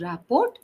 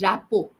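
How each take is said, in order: First: The final T sound is pronounced. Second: The final T sound is silent. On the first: The speaker calls it wrong. "It is not uh, pronounced as rapport" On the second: The speaker calls it right. "It is rapo. T is silent"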